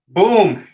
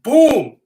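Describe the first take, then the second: First: It is said in the speaker's plain accent. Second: It is said in a New York accent.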